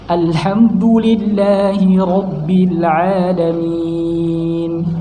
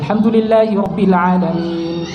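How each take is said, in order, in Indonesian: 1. Dibacakan dengan tempo agak cepat. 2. Dibacakan dengan tempo sangat cepat. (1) "Tadwir itu ya rada cepat" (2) "paling cepat itu namanya hadr. Hadr cepat"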